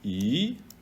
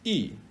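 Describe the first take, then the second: First: The syllable is said with the second tone. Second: The syllable is said with the fourth tone. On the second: "or four"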